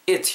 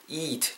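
First: The vowel is short and clipped. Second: The vowel is long and drawn out. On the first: The speaker calls it wrong. "이렇게 짧게 발음하시는 게 아니라" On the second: The speaker calls it right. "좀 길게 발음을 하셔야 된다"

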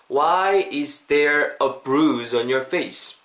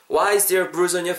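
First: The sentence is spoken slowly and carefully. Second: The sentence is spoken at a natural speed. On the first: "천천히 한번 더" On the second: "자연스럽게"

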